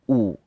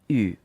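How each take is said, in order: First: The vowel sounds like the English oo. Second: The vowel sounds like the French u. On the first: The speaker calls it wrong. "not U" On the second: The speaker calls it right. "like the U in French. So it's U"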